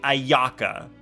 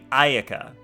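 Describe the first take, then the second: First: The second A carries strong stress. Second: The second A carries no stress. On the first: The speaker calls it wrong. "you don't say Ayaka" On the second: The speaker calls it right. "You say Ayaka. Because you don't stress the second A"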